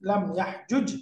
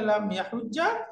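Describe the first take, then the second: First: The two j sounds stay apart, ending on a consonant. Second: The two j sounds merge into one doubled sound. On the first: "original রূপে" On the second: "ইদগাম করা রূপের সাথে"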